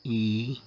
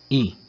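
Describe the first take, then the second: First: I held long, as a Latin long vowel; sustained long I sound. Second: I said briefly, as a Latin short vowel; quick short I sound. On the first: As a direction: draw out the vowel I. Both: Shown as a demonstration. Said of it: "para as vogais breves".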